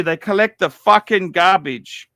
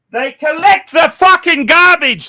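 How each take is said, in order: First: Said in the usual way. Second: Raised, higher angry rant; ranting shout. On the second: Real, not acted. Venting to stream viewers about garbage watches, shouting. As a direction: bark it out in disgust.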